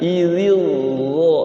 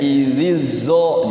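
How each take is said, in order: First: The second consonant is a heavy, emphatic 'dh' sound. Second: The second consonant is a plain, light 'z' sound. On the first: The speaker calls it right. "itu kayak gitu bagus ya" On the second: The speaker calls it wrong. "jadinya zai diokan ya"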